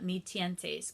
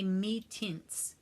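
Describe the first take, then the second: First: The last word sounds like 'tee-en-tes', Spanish-style. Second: The last word sounds like 'tints', one syllable. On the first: This is the speaker's own reading of the name. "I call it Mi Tientes because it looks Spanish" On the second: This is how others say the name. "I think they say Mi Tints"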